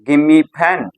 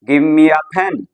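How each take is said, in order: First: The words are squeezed together in reduced form. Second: Every word is said fully and separately. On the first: "reduction English के अंदर कैसे बोला जाएगा?" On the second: "तो उसको हम translate इस तरह से करेंगे"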